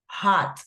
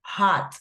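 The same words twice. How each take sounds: First: The vowel sounds open, like 'ah'. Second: The same.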